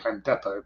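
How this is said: Depot is pronounced the British way.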